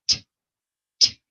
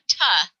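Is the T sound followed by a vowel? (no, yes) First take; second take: no; yes. First: A short T sound with no vowel after. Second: The T sound has a vowel added after. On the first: The speaker calls it right. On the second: The speaker calls it wrong.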